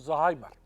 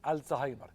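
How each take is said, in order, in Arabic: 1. الكلمة تبدأ مباشرة بصوت 'z'. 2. الكلمة تبدأ بصوت 'al'. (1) "ده نطق الدارج وده غلط" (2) "لما ننطقه ننطقه كده"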